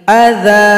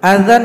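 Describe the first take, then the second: First: The word ends with a lengthened vowel. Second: The word ends with an n sound.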